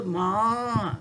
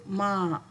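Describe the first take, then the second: First: "ma" cut short, the wrong way; the short "ma" pupils must avoid; wrong short version. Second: "ma" with the vowel held a bit longer; the right long "ma" against the short one. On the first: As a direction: show the mistake with a short "ma". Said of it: "Jangan sebut". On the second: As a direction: stretch the vowel of "ma" as it should be. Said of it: "bunyi panjang sedikit". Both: Shown as a demonstration.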